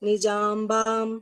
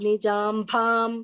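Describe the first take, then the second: First: The b sound is unaspirated, without a breath. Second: The b sound is aspirated, with a breath. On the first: The speaker calls it right. "Alpa Prana" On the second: The speaker calls it wrong. "that is Alpa Prana, not Mahaprana"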